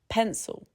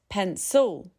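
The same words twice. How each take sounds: First: The second vowel is reduced to a schwa. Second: The second vowel is said as a full vowel. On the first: The speaker calls it right. "The I disappears into a schwa" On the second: The speaker calls it wrong. "not pencil"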